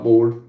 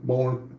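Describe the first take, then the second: First: "bored" said as the misread word, ending in a d sound; the first wrong read of "bored" with the d. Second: "born" said softly, ending in an n sound with no d; corrected word. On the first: Streamer corrects a misread chat word, first "bored" with a d. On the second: Streamer corrects a misread chat word, "born" soft with an n ending. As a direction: settle on "born" quietly, with the n ending. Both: Shown as a demonstration. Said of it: "Twist, born, not bored".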